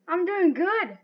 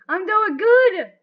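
First: Said in the usual way. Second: Loud, high and drawn out; excited boast. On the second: Real, not acted. Player cheering their own progress, excited boast. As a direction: crow it slowly at the top of the voice. Repeats it louder, celebrating progress.

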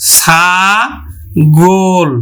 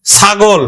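First: ছাগল very slowly in two held syllables, ছা... গোল; syllable-by-syllable pronunciation. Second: Said in the usual way. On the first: Shown as a demonstration. Teacher shows student friends how to pronounce, ছাগল drawn out as ছা-গোল. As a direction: stretch ছাগল apart, closing the second vowel to o. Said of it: "তাহলে আমরা উচ্চারণ করব". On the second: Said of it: "আমরা উচ্চারণ করব".

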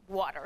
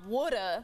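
First: "water." with a clear r at the end; standard water. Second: "woulda" as Philly wood-uh; Philly water. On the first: Correcting her ex, careful standard "water.". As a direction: finish "water." with the r. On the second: Teaching her ex, "woulda" in Philly style. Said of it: "it's not". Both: Shown as a demonstration.

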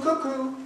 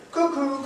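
First: High two-note echo of the bird; cuckoo call. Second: High two-note bird call; cuckoo call. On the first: The narrator repeating the cuckoo's call, bird call. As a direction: call it once more like a cuckoo. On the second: The narrator sounding the cuckoo in the wood, bird call. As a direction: imitate the cuckoo. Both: Acted.

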